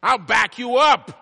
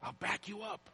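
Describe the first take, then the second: First: High, slow, booming promise; loud proclamation. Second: Soft but high-pitched promise; hushed repeat. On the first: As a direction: shout it out as a preacher voicing God. Proclaims promise loudly, then repeats softly. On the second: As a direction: drop to a hushed, high voice for effect. Repeats the proclaimed promise softly. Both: Acted.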